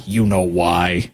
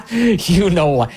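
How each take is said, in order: First: Slow laughing you know why. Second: Knowing laugh. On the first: Host teasing viewers about the real reason, laughing slowly. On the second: Host spelling out the caucus's motive, slow laughing. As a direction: drag it out through the laugh. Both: Real, not acted.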